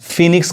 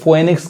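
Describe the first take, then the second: First: The 'o' is silent in the first syllable. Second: The 'o' is sounded in the first syllable. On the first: The speaker calls it right. "इसको हम फिनिक्स कहेंगे" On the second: The speaker calls it wrong. "बहुत लोग इसको फोएनिक्स कहते हैं"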